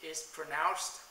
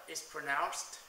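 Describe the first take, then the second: No difference in how they are said.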